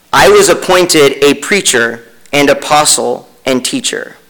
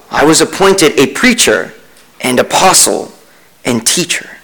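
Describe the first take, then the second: Both takes have the same delivery.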